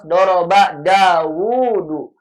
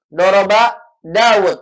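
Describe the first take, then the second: First: The name is said long, with a lengthened vowel. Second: The name is said short, as two syllables. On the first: The speaker calls it right. "harus Doroba Dawudu. Wanya dipanjangin" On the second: The speaker calls it wrong. "nggak boleh dibaca Doroba Daud"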